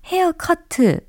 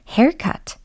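First: It is said as a Korean loanword. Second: It is said with English pronunciation. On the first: "헤어커트 이렇게 많이 예, 이야기를 하잖아요" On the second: "haircut 이렇게 발음해 주시면 됩니다"

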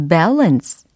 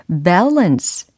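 Both takes have the same delivery.

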